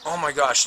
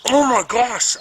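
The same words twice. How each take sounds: First: Said in the usual way. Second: Shocked exclamation. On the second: Retold or imitated.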